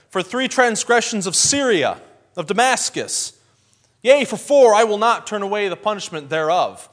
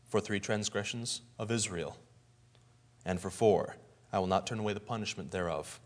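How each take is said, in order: First: Fiery preaching. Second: Low, soft, ominous; grave pronouncement. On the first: Amos preaching against Damascus, loud and fiery. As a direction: thunder it out like a prophet to the crowd. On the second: Amos turning judgment on Israel, low and grave. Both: Retold or imitated.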